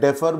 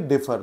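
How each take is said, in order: First: The first vowel sounds like 'e' in bed. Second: The first vowel sounds like 'i' in bit. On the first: The speaker calls it right. "आप इसे डेफर बोलेंगे" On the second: The speaker calls it wrong. "डिफर नहीं"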